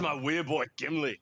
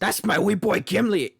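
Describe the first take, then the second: First: Scottish dwarf. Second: Higher put-on Scottish accent; proud dwarf in a mock Scottish brogue; playful Scottish movie-dwarf voice. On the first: Acted. Echoing the Scottish dwarf quote. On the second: Putting on Scottish dwarf quote.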